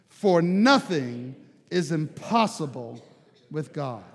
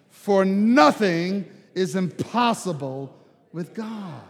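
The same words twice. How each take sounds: First: It is said with forceful conviction. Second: It is said with the most force and conviction.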